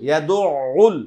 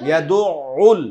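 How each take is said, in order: Both takes have the same delivery.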